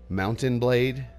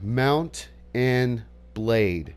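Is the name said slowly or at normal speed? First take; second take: normal speed; slowly. First: The name is said quickly with words run together. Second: The name is said slowly with separated words. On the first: The speaker calls it wrong. "if you say it even at a normal pace, it sounds like Mountain Blade" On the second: The speaker calls it right. "I say it really slow like that"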